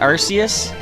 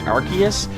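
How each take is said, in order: First: The C is soft, like an s. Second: The C is hard, like a k. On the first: "I just said Arceus" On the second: "I prefer to pronounce it Arceus, because it sounds like uh, archaeology"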